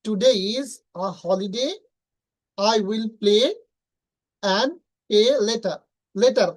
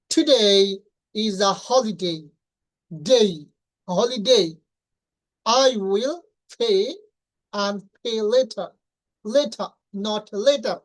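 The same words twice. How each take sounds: First: Slow reading with flat "de" endings on Today and holiday; usual local reading. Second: Slow, stretched reading with gliding "dei" in Today and holiday; native-style reading. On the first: Teacher reads the sentence as learners usually do. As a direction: read it the usual Bangladeshi way. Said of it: "আমরা সাধারণত উচ্চারণ করি". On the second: Teacher models the native reading of the sentence. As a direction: read it like a native speaker. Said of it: "native স্পিকাররা কিভাবে উচ্চারণ করে". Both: Shown as a demonstration.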